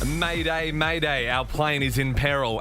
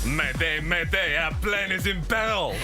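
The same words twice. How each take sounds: First: It is read in an English accent. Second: It is read in a French accent. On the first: "So could we get it in English?" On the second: "As a French accent goes"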